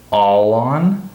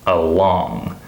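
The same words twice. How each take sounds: First: "all on" drawn out slowly, ALL stressed; first-word stress. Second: "along" with drawn-out, stressed LONG; light first syllable, weight on the end of "along"; second-syllable stress. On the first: Teacher isolating the contrast, slow "all on" stressed on "all". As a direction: stretch "all on", weight on "all". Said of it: "So here it's". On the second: Teacher isolating the contrast, "along" stressed on second syllable. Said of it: "and here it's". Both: Shown as a demonstration.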